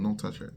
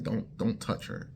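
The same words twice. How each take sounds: First: Said in the usual way. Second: Breathy whispered don't touch her; hushed warning. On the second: Retold or imitated. Whispering a warning about the girl who hates being touched. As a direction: whisper the warning like a secret rule.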